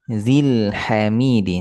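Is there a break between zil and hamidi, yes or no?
no. The two words run together without a break. The speaker calls it right. "Satukan, sambungkan"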